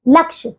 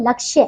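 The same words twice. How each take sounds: First: लक्ष्य said as "laksh"; wrong dropped y. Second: लक्ष्य said as "lakshya"; correct final y. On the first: Teacher showing pupils the error, लक्ष्य cut to "laksh". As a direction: drop the final y sound of लक्ष्य. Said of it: "लक्ष्य नहीं". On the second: Teacher correcting pupils, लक्ष्य with its y ending. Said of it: "क्या होता है". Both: Shown as a demonstration.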